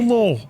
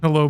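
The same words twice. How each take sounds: First: It is said in a put-on Russian accent. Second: It is said in the speaker's ordinary accent.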